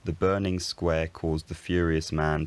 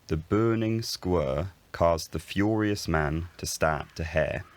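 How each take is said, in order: First: The vowels sound like standard modern British. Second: The vowels are shifted to unfamiliar qualities. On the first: This is how it is said today. "in today's Southern Standard British English" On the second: This is a hypothetical future pronunciation. "In this hypothetical vowel shifted Southern Standard British English"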